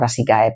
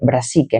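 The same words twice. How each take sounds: First: The ending is two vowels, 'a' then 'e'. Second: The ending is a single 'e' vowel sound. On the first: The speaker calls it wrong. "no brassicae" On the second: The speaker calls it right. "si termina en A E, se pronuncia E"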